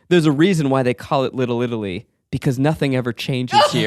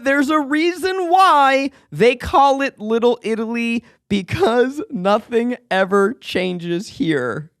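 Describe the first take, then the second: First: The line is spoken at a normal pace. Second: The line is spoken slowly and deliberately.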